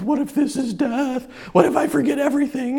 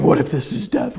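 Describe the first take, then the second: First: Higher, softer, worried whisper of a question; frightened inner voice spiraling; anxious fear. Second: Said in the usual way. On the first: Retold or imitated. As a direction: fret it out, a little rushed. Retold panic about dying.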